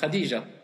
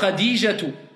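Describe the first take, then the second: First: The name ends on a plain open 'a' sound. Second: The name ends with a clearly spoken 'tu'. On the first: This is the everyday way of saying it. "comment on le prononce en général?" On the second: This is the full form as written in Arabic. "Je prononce clairement"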